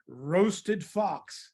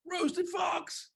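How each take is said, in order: First: Slow, drawn-out words; slow menacing reveal. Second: Gasping, high-pitched scared squeal; panicked fox. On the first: Mouse warns the fox about the favorite food, slow reveal. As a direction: stretch out the dish name for effect. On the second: Fox hears it is the favorite food, panicked. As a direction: play a frightened fox in a high voice. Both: Acted.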